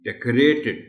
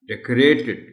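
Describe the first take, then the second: Both takes have the same delivery.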